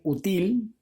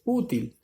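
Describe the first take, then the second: First: Útil stressed on the end, u-TIL; wrong stress. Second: Útil stressed on the opening U, Ú-til; correct stress. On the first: Teacher showing what you can't say, útil stressed on TIL. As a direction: shift the beat of útil onto til. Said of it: "No suena correcto". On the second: Teacher restoring the right útil, stress on U. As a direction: hit the U of útil, let til fall. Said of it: "Entonces, útil". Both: Shown as a demonstration.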